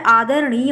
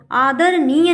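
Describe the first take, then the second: First: आदरणीय with retroflex ṇ, tongue curled back; correct pronunciation. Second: आदरणीय with dental n for ṇ; wrong pronunciation. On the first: Teacher gives the right word, with retroflex ṇ. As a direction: flap the ṇ in आदरणीय. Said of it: "ना और ड़ा में difference". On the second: Teacher shows the misspelling, said with dental n. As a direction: keep the n of आदरणीय on the teeth. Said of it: "आदरणीय नहीं होता है". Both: Shown as a demonstration.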